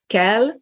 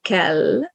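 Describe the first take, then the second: First: "kell" ending on a short, single l. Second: Kell with a lingering final l; long L. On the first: Teacher gives consonant pair, short L. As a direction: let the final l of "kell" go quickly. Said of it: "it's short, the other one is long". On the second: Teacher gives consonant pair, long L. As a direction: hold the double l at the end of kell. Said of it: "the other one is long". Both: Shown as a demonstration.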